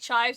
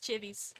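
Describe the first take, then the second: First: The word is said with one syllable. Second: The word is said with two syllables.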